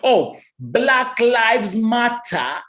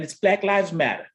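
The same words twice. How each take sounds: First: "Black Lives Matter" stretched very slowly, British T in matter; drawn-out Black Lives Matter. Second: Said in the usual way. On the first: Shown as a demonstration. Host mocks UK English: very slow crisp Black Lives Matter. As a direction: drag out each word of Black Lives Matter.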